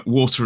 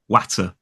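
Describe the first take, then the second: First: Said in the usual way. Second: "watter" with a short a, as in hat; regional vowel. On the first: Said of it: "he says". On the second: Shown as a demonstration. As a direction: say "watter", rhyming with batter. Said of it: "it'll be more watter".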